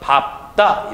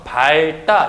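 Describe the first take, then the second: First: The p sound is kept before the ending. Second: The l sound is kept before the ending. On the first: The speaker calls it right. "뒤에 있는 자음이 남아요. 그래서 밥다 이런 식으로 발음을" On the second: The speaker calls it wrong. "밝다 이렇게 발음을 해야 되는데 그렇게 발음하는 것이 아니라"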